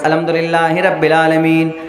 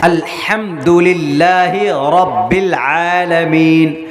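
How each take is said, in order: First: The phrase is said casually, without careful articulation. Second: The phrase is said with carefully articulated sounds. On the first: The speaker calls it wrong. "बस" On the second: The speaker calls it right. "तजवीद के साथ"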